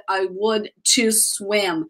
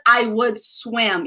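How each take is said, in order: First: Slow "would to swim", with "to" set apart; slow demonstration of faulty "would to swim"; wrong form highlighted. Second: Said in the usual way. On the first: Shown as a demonstration. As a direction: pick out the extra "to" as a mistake. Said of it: "You don't say". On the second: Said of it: "So it's just".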